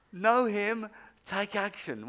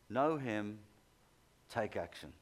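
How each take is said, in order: First: Louder, delighted reading of the slogan; excited. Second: Said in the usual way. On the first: Retold or imitated. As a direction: savour the slogan like a great discovery. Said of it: "I thought, "Wow". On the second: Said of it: "It's got".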